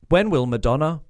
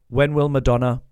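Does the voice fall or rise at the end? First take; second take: rise; fall. First: The voice goes up at the end. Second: The voice goes down at the end. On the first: It sounds like a question. The speaker calls it wrong. "I went up there because I'm Australian and my inflections always go up at the end" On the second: It is read as written, without a question mark. The speaker calls it right. "it should be just"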